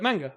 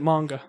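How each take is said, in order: First: It is said the non-American way, following the spelling. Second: It is said the American way. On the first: "because we pronounce letters correctly, we call it manga" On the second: "they all pronounce it manga"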